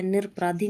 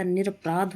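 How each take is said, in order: First: निरपराधी ending in dhee; wrong form. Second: निरपराध closed on dh; no ee after निरपराध; correct form. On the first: Teacher showing the error, निरपराधी with final ee. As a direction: add ee to the end of निरपराधी. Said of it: "नहीं होता". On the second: Teacher correcting the word, निरपराध without final ee. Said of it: "होता है". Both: Shown as a demonstration.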